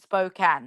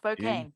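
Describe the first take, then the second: First: The second syllable sounds like 'can'. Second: The second syllable sounds like 'cane'. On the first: The speaker calls it right. "making sure I put S P O dash C A N" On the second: The speaker calls it wrong.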